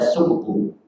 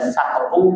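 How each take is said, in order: First: The first vowel is u. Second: The first vowel is a. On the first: "bisa dibaca suktu" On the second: "bisa dibaca saktu"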